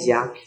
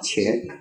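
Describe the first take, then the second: First: The word starts with a 'j'-like sound. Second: The word starts with a 'ch'-like sound. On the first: This is how northern speakers read it. "那么正是那个北方人，他说还是念家" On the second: This is how Taiwanese speakers read it. "这个字有人念的瘸，台湾人念什么？"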